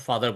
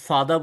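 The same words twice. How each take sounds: First: "ফাদার" with the final r sounded; American pronunciation. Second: "ফাদার" with a silent final r; British non-rhotic "ফাদার"; British pronunciation. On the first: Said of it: "আমেরিকানরা একভাবে বলে". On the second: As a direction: end "ফাদার" on an open uh, no r. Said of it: "ব্রিটিশরা একভাবে বলে". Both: Shown as a demonstration.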